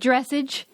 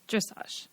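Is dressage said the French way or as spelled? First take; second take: as spelled; French way. First: The word is said as it is spelled. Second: The word is said the French way. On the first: The speaker had only ever read the word. The speaker calls it wrong. "I mispronounced dressage or whatever. ... I called it like dressage. ... Because I'd only ever read it" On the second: This imitates how someone corrected the speaker. The speaker calls it right. "And you were like, dressage"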